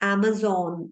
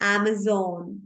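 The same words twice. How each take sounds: First: The middle consonant is a 'z' sound. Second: The same.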